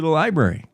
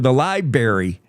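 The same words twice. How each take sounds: First: The R after the B is pronounced. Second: The R after the B is dropped. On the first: The speaker calls it right. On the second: The speaker calls it wrong.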